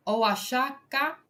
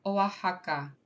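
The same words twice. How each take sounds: First: "Oaxaca" with a sh sound, oh-ah-SHAH-kah; slow, tentative "Oaxaca", x said as sh; mistaken pronunciation. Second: "Oaxaca" with an h sound, oh-ah-HAH-kah; corrected pronunciation. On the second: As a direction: say "Oaxaca" with the x as a breathed h. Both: Real, not acted. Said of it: "No, Oaxaca".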